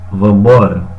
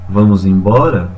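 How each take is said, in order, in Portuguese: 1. Sílabas são omitidas, e as palavras se juntam em uma só. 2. Todas as sílabas das duas palavras são pronunciadas.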